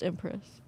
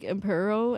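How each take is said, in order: First: The word ends with an 'us' sound. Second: The word ends with an 'oh' sound. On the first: The speaker calls it right. "but it's Empress" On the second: The speaker calls it wrong. "that was not how you say it"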